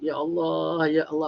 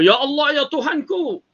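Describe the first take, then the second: First: It is said in a soft, gentle voice. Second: It is said in a loud, harsh voice.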